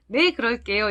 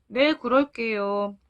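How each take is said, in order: First: Put-on cheerful, willing child's answer; bright reply. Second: Put-on slow, downcast child's reply; slightly dejected. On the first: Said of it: "이렇게 밝게 말했을 것 같아요". (밝게 대답하는 목소리) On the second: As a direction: agree slowly, a little crestfallen. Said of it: "약간 풀이 죽은 목소리로". (약간 풀이 죽은 목소리)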